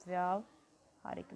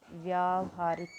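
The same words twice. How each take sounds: First: Said in the usual way. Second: Slow model word. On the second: Shown as a demonstration. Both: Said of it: "तो क्या बनेगा ये?".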